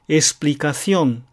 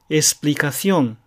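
First: The x is pronounced as s. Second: The x is pronounced as s.

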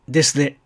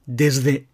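First: The s sound is voiceless. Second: The s sound is voiced, like a z.

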